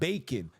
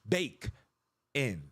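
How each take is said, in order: First: It is run together as one word. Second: It is split into two separate words. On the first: The speaker calls it wrong. "Not bacon" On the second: The speaker calls it right. "this bake, bake in"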